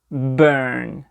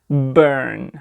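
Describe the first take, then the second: No difference in how they are said.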